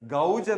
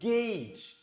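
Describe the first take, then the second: First: The vowel sounds like 'ow'. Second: The vowel sounds like 'ay'. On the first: The speaker calls it wrong. "നമ്മളിതിനെ ഗൗജ് എന്നോ ഘോഷ് എന്നല്ല വായിക്കുന്നത്" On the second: The speaker calls it right. "It is pronounced as ഗേജ്"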